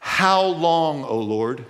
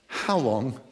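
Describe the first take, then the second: First: Aching plea. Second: Low, hushed and drawn out; quiet aching plea. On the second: Pastor showing the congregation the psalm's ache, hushed. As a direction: let the question ache softly. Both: Shown as a demonstration. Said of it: "You hear it?".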